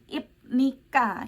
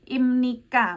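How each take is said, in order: First: The consonant before 'nika' is a p sound. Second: The consonant before 'nika' is an m sound. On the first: The speaker calls it wrong. "bukan dibaca B atau P" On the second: The speaker calls it right. "dibacanya miem ya"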